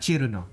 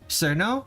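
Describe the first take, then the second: First: The name has Japanese pronunciation with an extra vowel. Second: The name follows plain English spelling pronunciation. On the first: "the way it's pronounced in Japanese" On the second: "the way it's spelled and pronounced in English"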